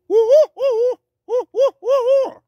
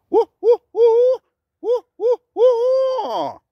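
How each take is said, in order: First: High, loud, short choppy hoots; choppy male owl hoot. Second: High, loud hoots with a long falling last note; flowing female owl hoot. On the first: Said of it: "shorter and choppier". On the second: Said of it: "female has a very nice flowing sound". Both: Shown as a demonstration.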